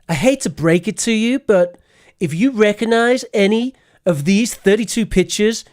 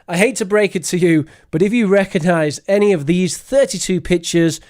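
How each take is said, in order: First: It is said in a put-on youthful voice. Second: It is said in the speaker's ordinary voice. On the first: "Let me say this in a Zoomer voice" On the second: "I will never do that again"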